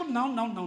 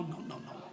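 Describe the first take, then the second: First: Said in the usual way. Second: No no no fading to a whisper; soft, breathless repeated refusal. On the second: Retold or imitated. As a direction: let the last three no's die away unvoiced.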